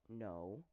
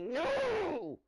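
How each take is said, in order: First: The word is said softly and calmly. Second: The word is shouted loudly and sharply. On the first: A patient, repeated request to stop. "in this voice" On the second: Patience has finally run out. "in my loud voice"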